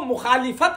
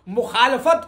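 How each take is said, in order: First: The third syllable has the vowel 'i'. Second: The third syllable has the vowel 'a'. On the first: The speaker calls it wrong. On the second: The speaker calls it right.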